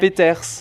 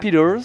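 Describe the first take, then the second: First: The name is said with a French pronunciation. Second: The name is said with an American pronunciation. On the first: "quelle belle prononciation de mon nom de famille" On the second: "ça c'est quand t'es de l'autre côté de l'Atlantique"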